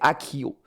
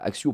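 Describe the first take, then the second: First: It is pronounced the English way. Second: It is pronounced the French way. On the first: This is how English speakers say the spell. "en anglais, c'est Akio" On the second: This is how French speakers say the spell. "Axio pour nous"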